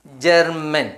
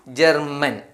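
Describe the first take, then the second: No difference in how they are said.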